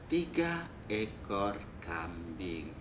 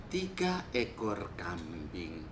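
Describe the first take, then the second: No difference in how they are said.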